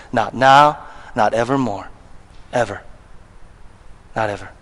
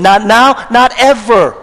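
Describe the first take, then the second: First: "Not now, not evermore, ever" dropped low and much softer; quiet emphasis. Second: "Not now, not ever" proclaimed with each "not" hit hard; emphatic declaration. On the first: Preacher quietly sealing the point to congregation, "Not ever" said soft and low. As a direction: let "Not ever" sink in softly. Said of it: "Paul says". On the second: Preacher declaring to congregation, "Not now, not ever" punched hard. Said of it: "Paul is saying emphatically". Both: Acted.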